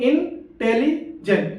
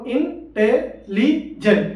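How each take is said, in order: First: intelligent as three slow beats, in-teli-jent; split in three. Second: intelligent very slow, four detached syllables; split in four. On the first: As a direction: run te and li together in intelligent, gaps around them. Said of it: "तीन बार पर". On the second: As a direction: count out in, te, li, jent with gaps in intelligent. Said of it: "चार word बोल". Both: Shown as a demonstration.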